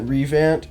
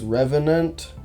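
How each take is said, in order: First: The word is said in a shortened, clipped form. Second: The word is said in its full form. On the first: The speaker calls it wrong. "I know that Revant is not how you say it" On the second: The speaker calls it right. "It's Revenant or something like that"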